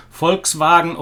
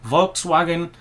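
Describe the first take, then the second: First: VOLKSWAGEN said 'Folks-vah-gen'; German Volkswagen, V as f and W as v; German pronunciation. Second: VOLKSWAGEN said 'Volks-waggen'; English Volkswagen with a voiced V and an English W; English pronunciation. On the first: Listing German quality cars, German pronunciation of Volkswagen. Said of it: "the English pronunciation would be". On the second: Listing cars as the English say them, English pronunciation of Volkswagen. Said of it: "I think the English pronunciation would be". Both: Shown as a demonstration.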